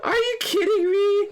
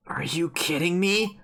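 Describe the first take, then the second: First: Very high-pitched wailing cry; distraught disbelief. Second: Slow, measured indignation in usual pitch; restrained disbelief. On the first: Real, not acted. Gamer reacting to Rekko's fate, wailing disbelief. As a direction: squeal it as a tearful protest. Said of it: "I already screamed". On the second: Acted. Character confronting blatant lies, controlled disbelief. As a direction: hold the outrage back, drawing out each word. Character's line read after shock.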